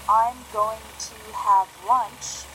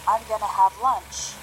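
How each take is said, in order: First: "Going to" is said in full. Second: "Going to" is reduced to "gonna".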